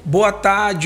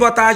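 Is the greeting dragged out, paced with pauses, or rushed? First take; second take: paced; rushed. First: It is said calmly after a pause and breath. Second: It is said quickly, running straight on. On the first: The speaker sounds composed and elegant. The speaker calls it right. "é com pausa. Tudo bem, gente? Respirei" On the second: The speaker is nervous. The speaker calls it wrong. "você começa sem perceber acelerar sua fala"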